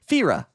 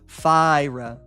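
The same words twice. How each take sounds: First: The first vowel sounds like 'fee'. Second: The first vowel sounds like 'fie'. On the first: The speaker calls it wrong. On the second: The speaker calls it right. "The I is a long I"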